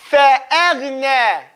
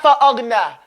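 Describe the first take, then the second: First: فأغنى with a held, stopped ghain; correct version. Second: فأغنى said flat and short; wrong version. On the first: Teacher giving the right reading after a mistake. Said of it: "No, not". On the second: Teacher correcting a student's reading. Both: Shown as a demonstration.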